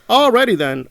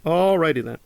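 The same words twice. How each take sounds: First: Sarcastic alrighty. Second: Said in the usual way. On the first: Retold or imitated. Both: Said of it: "And I'm like".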